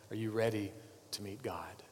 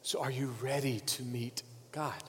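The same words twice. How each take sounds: First: "Are you ready" softly, then "to meet God" whispered; hushed repeat. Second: Said in the usual way. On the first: Shown as a demonstration. Preacher repeating his question to the congregation, fading into a whisper. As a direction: drop the repeat to a whisper so it sinks in. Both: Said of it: "I'll say it again".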